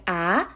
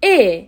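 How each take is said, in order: First: "ا" as an open a, like in cat; open A sound. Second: "ا" as a long closed e, like in bed; closed E sound. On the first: Teacher showing the first sound of the letter, "ا" as open a in cat. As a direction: say "ا" as short-a held alone. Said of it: "بعضی مواقع به صورت ا". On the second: Teacher showing the second sound of the letter, "ا" as closed eh. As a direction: hold "ا" as a clear eh. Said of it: "و بعضی مواقع به صورت". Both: Shown as a demonstration.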